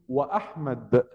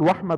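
First: The glottal stop before Ahmad is clearly pronounced. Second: The glottal stop is dropped, words run together. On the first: The speaker calls it right. "لابد أن تنطق الهمزة همزة قطع" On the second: The speaker calls it wrong. "ما ينفعش أقول وأحمد على طول"

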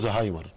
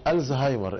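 First: The name is said in a shortened form. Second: The name is said in its full form. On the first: This is how Egyptians commonly say it. "انما المصريين بينطقوه زهايمر" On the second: This is the actual name of the disease. "هو اسمه الزهايمر"

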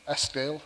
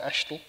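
First: The name is said with a clear sk sound. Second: The name is said with an sh sound. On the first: This is the standard way outsiders say it. "a show called Eskdale" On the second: This is how locals say it. "although we would call it Eshtel"

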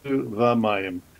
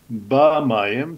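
First: The word begins with a soft v sound. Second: The word begins with a hard b sound. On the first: "the dot drops out, and it goes from lagdisheni ba-mayim to va-mayim" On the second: "I thought it was supposed to be ba mine"

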